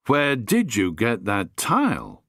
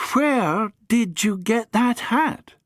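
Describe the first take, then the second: First: Said in the usual way. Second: Put-on high, slow and curious young woman; Amy puzzled by the battered hat; Amy's voice. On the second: Amy asks about the hat, high and slow.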